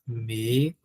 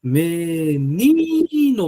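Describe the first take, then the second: First: Menino in low, soft, separate syllables; split syllables. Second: Menino very slow, with NI held long; stress on NI. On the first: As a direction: spell out Menino slowly as me, ni, no. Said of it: "dê uma olhadinha na palavra menino". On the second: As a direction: call out me-NIII-no. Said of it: "Qual é a sílaba tônica de menino?". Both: Shown as a demonstration.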